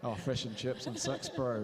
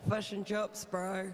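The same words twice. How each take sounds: First: Reluctant attempt at a Kiwi accent, sux; light New Zealand accent, fush and chups and sux. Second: Put-on jokey Kiwi accent, fush and chups; New Zealand accent, said for a laugh. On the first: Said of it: "don't even ask me to try and even do a Kiwi accent". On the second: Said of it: "speak with a real Kiwi accent".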